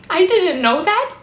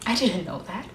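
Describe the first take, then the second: First: High, louder anguished admission; distressed protest. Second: Low, subdued confession; quiet admission. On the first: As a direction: protest it, voice rising at the end. Same admission, now in distress. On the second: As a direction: admit it softly, pitched down. Monologue, quiet admission of ignorance. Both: Acted.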